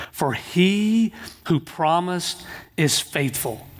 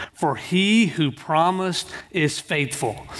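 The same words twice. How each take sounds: No difference in how they are said.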